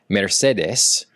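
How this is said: It is said with a Spanish pronunciation. "Spanish would be Mercedes"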